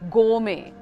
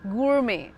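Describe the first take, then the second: First: British accent, with the R almost silent. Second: American accent, with a clearly sounded R. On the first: "British pronunciation is gourmet. R almost silent" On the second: "American pronunciation is gourmet. rolled R"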